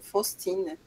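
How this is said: The name is said with a French pronunciation.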